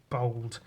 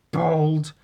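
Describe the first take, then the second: First: Said in the usual way. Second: "bold" said higher and louder; stress on bold. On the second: Shown as a demonstration. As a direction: punch the word "bold" to make it clear. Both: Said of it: "B O L D".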